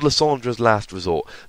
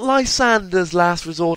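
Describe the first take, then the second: First: The name ends with a -dra sound. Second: The name ends with a -der sound. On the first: The speaker calls it right. "It's called" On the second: The speaker calls it wrong.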